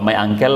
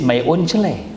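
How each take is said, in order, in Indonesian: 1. Uncle diucapkan sebagai 'angkel', dengan gaya Inggris. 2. Uncle dibaca huruf demi huruf, seperti 'un-se-le'. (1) "Kalau my angkel oke okay lah, tak ada masalah" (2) "angkel dibaca uncele gitu ... ini tak cocok nih"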